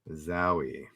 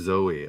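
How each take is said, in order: First: The first vowel sounds like 'ow' in cow. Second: The first vowel sounds like 'oh' in go. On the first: The speaker calls it wrong. "not Zowie" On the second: The speaker calls it right. "I should have pronounced it Zoe"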